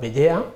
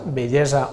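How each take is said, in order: First: The s before the final a is dropped. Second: The s before the final a is sounded. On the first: "o EA" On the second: "la pronúncia ESA"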